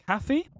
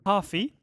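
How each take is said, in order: First: "Caffey" with a short flat first a, lifted like a question; trial pronunciation. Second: "Coffee" with a long open ah and no r, rising; trial pronunciation. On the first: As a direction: try "Caffey" with the a of cat, questioning. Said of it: "I'm gonna get it right". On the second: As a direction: try "Coffee" as "KAH-fee", questioning. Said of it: "It's either". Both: Shown as a demonstration.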